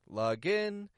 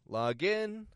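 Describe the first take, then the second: First: The stress is on the second part, in. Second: The same.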